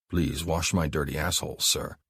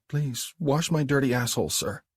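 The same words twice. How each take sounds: First: Mark's dictation. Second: High, hesitant submissive echo; Abby's submissive repeat. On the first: Mark tells Abby what to say, commanding. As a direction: hand her the words to repeat. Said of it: "Abby closed her eyes". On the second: Abby repeats Mark's demand back to him, submissive. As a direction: repeat his words, ashamed but obedient. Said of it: "repeats his words". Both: Acted.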